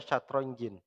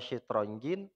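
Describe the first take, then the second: First: The first vowel is an a sound. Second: The first vowel is an i sound. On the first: "boleh dibaca fathah" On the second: "Syaknya boleh dibaca kasroh"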